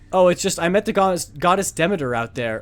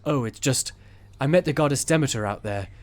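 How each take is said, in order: First: It is read in the speaker's ordinary voice. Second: It is read in a put-on character voice.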